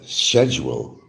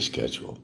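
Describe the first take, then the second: First: It is said the British way. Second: It is said the American way. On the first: "they'll pronounce the words like it's supposed to be, how it's actually spelt" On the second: "we'll say schedule"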